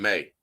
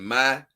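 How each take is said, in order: First: The name does not rhyme with Kai. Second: The name rhymes with Kai. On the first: "I'm just saying May because the other one is Kai" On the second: "like Kai"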